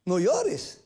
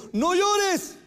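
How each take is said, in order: First: Said in the usual way. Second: High, louder cry of no llores; urgent plea. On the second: Acted. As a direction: call out no llores high and strong. Jesus comforts a weeping woman.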